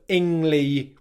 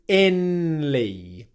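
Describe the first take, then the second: First: An NG sound comes before the L. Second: An N sound comes before the L. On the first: The speaker calls it right. "which is correct" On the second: The speaker calls it wrong. "pronounce an N sound instead of an ng sound"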